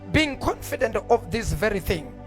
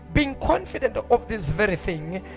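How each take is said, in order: The two takes are said the same way.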